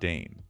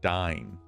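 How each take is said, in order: First: The vowel sounds like 'ay'. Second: The vowel sounds like 'eye'. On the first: The speaker calls it wrong. "not Dane" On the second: The speaker calls it right. "I'm pretty sure it's pronounced like Dine"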